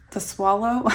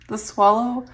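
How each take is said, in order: Both takes have the same delivery.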